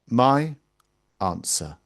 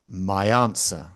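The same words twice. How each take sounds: First: The words are said separately with no linking sound. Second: A y sound links the two words together. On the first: "you almost never hear those words pronounced like that" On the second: "you hear a y sound"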